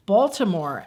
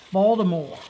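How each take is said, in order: First: Said in the usual way. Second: "Baltimore" in a Baltimore accent, Bawl-dih-more. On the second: Shown as a demonstration. Mimicking the stepfather's family, a Baltimore-accent "Baltimore". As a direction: say "Baltimore" like a local. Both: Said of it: "that accent is even a little bit wackier".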